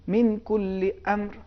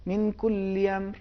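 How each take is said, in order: First: امر with its hamza struck sharp and sudden, slow and deliberate; with nabr on the hamza. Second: امر with its hamza softened, no sudden catch, slow; hamza without nabr. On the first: Teacher demonstrating امر with a sharp hamza to the host. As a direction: snap the hamza of امر out like a small burst. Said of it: "حرف حمزے کو نبر کے ساتھ اگر ادا کریں گے تو یہی تلفظ ہے". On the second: Teacher showing the host the weak امر without nabr. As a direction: let the hamza of امر slide in gently. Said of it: "اگر نبر کو ادا نہ کریں تو تلفظ یوں ہو جائے گا".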